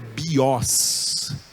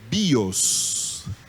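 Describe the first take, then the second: First: The stress falls on the second vowel, o. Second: The stress falls on the first vowel, i. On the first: The speaker calls it wrong. "não é bios" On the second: The speaker calls it right. "é bios"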